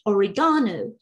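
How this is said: It is said in a British English accent. "British English"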